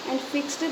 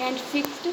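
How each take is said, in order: Both takes have the same delivery.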